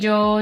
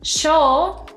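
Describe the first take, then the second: First: The word begins with a 'y' sound. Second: The word begins with an 'sh' sound. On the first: "La doble L y la Y tienen un sonido muy similar" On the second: "En países como Argentina o Uruguay, el sonido de la doble L y la Y a veces puede sonar sh"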